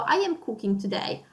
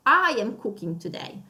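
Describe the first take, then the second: First: Said in the usual way. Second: I said with extra weight; stress on I. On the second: Shown as a demonstration. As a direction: lean on the I. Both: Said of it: "you want to stress out that today".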